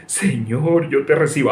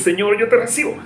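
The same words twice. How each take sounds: First: A hint of a pious believer praying; lightly mocking prayer. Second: Mock prayer, much higher and tense; strained fist-clenched prayer. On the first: Preacher mimics believers' fist-clenched prayer, mildly mocking. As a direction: say it like a half-hearted mock prayer. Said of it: "unir los puños así y decir". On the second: Preacher mocks believers clenching fists to pray, strained and high. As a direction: squeeze the words out like clenching fists. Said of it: "Apriete más los puños".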